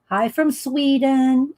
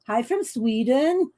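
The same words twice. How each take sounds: First: It is said in the speaker's normal accent. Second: It is said in an imitated Swedish accent.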